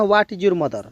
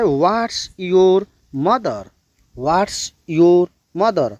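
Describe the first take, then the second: First: Said in the usual way. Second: Drawn-out model sentence, word by word; slow right version for learners; correct model, very slow. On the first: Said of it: "आपको ये नहीं कहना है". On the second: Shown as a demonstration. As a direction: say it slowly so the class can copy. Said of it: "ऐसे बोलना है".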